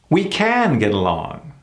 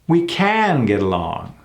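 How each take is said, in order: No difference in how they are said.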